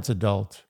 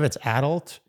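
First: The stress is on the second syllable. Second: The stress is on the first syllable. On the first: The word is used as a noun. "Noun, okay. It's adult" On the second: The word is used as an adjective. "I think adjective, it's adult"

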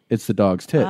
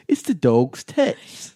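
First: It is said in the speaker's ordinary accent. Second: It is said in an imitated English accent.

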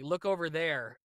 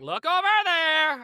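First: It is said in a plain, ordinary voice. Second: It is said in an odd, comic put-on voice. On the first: "if someone has to say" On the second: "weird inflections or weird lines to kind of entertain myself"

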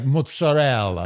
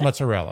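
First: It is said in an Italian-style way. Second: It is said the plain American way. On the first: The speaker calls it wrong. "like people say like mozzarella" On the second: The speaker calls it right. "It's mozzarella. You're in America"

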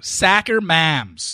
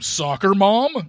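First: It is said in a thick Midwestern accent. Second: It is said in a neutral accent. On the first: "Say it how you said it on the show" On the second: "you don't say it like that"

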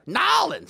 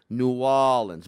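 First: The name is squeezed into two short syllables. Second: The name is said with New sunk in. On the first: This is how outsiders say it. The speaker calls it wrong. "no one says that shit" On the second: This is how locals say it. The speaker calls it right. "The way a true New Orleans would say it would be New Orleans"

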